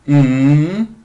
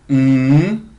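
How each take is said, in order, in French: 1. Le ton du mm monte de bas en haut. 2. Le ton du mm monte de bas en haut.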